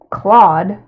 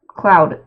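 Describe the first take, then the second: First: The name rhymes with the word sawed. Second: The name rhymes with the word loud. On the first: "there's also the way to pronounce it" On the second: "I pronounce it cloud, like the Swedish way"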